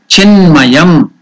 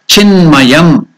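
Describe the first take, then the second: No difference in how they are said.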